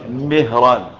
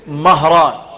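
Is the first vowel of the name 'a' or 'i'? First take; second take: i; a. First: The first vowel is a front 'i' sound. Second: The first vowel is an open 'a' sound. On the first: It is the name of the Prophet's freed servant. "بكسر الميم" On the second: It is the name of other men in the history books. "بفتح الميم"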